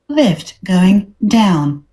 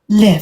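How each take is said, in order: First: It is said in an American accent. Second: It is said in a British accent.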